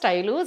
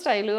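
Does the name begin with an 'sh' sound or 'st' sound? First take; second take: st; st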